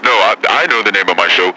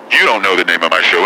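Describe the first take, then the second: First: Emphasis on I, contrasting it with you; stress on I. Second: Emphasis on You, throwing the question back; stress on You. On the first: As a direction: lean on I to correct the other person. Turns the question back. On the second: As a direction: hit You as a retort. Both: Acted.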